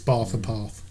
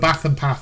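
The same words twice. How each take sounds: First: The words are said in the new, southern way. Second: The words are said in the old, northern way. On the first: This is how the speaker says it now. "It's Bath and Path" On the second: This is how the speaker used to say it. "Bath and Path are gone now"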